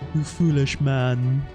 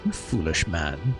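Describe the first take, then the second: First: It is said in a put-on character voice. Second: It is read in his plain voice.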